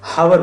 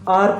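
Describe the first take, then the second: First: The word begins with an audible h sound. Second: The word begins directly with a vowel sound. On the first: The speaker calls it wrong. "अगर आप इसको कहोगे हार, हावर बोलोगे" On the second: The speaker calls it right. "वो आर pronounce होता है, हार प्रोनाउंस नहीं होता"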